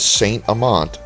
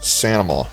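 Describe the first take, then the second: First: The name is said as two separate words. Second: The name runs together as one word. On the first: The speaker is not from the area. The speaker calls it wrong. "if you come here and pronounce the name of the area as Saint Amant" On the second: This is how the locals say it. The speaker calls it right. "locally the name is pronounced something like Sanama"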